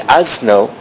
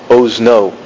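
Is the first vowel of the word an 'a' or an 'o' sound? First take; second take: a; o. First: The first vowel is an 'a' sound. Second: The first vowel is an 'o' sound. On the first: The speaker calls it wrong. "you would have thought that in the Sfardi pronunciation it would be azno" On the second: The speaker calls it right. "I pronounced it ozno"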